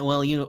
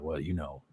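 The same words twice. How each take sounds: First: It is said in his ordinary voice. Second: It is said in a put-on deep voice. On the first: The speaker calls it wrong. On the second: The speaker calls it right.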